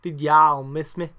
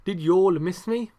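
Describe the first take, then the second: First: Loud, slow Southern drawl; imitated Southern drawl, called out loudly; put-on Southern accent. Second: "y'all" said as "yawl" in an English accent; awkwardly English "Did y'all miss me"; normal English accent. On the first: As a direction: stretch "y'all" open like a mock Southerner. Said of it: "that sounds a bit better". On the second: Shown as a demonstration. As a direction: ask it in a plain English accent, a bit loud. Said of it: "in a normal English accent".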